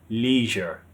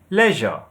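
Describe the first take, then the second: First: It is said in an American accent. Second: It is said in a British accent.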